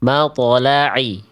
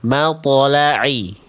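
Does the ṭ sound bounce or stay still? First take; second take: bounces; bounces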